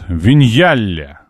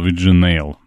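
First: The name is said as vin-YA-le. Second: The name is said as vi-dzhi-NEYL. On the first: The speaker calls it right. "Виньяле правильно читается" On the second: The speaker calls it wrong. "ник, который я ранее читал"

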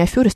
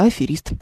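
First: The second syllable has the vowel 'yo'. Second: The second syllable has the vowel 'e'. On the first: The speaker calls it wrong. "Он же не аферист" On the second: The speaker calls it right. "а аферист"

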